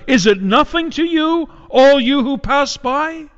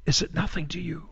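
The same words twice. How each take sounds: First: Anguished outcry. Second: Much softer, broken-off repeat of the cry; hushed plea. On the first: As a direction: call out to the passersby in anguish. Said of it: "at the top of her lungs". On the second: Widow Jerusalem asking the passersby again, hushed and softer. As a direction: let the plea fall to almost nothing. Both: Acted.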